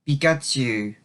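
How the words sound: It sounds reluctant and disappointed.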